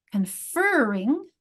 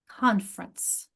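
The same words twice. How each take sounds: First: "Conferring" slowly, stretching FER; slow con-FER-ring for "Conferring"; second-syllable stress. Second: "conference" as CON-fer-ence; weight CON in "conference", then let it fall; "conference" stressed at the front; first-syllable stress. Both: Shown as a demonstration. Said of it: "notice the different stress patterns".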